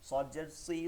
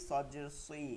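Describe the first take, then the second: Both takes have the same delivery.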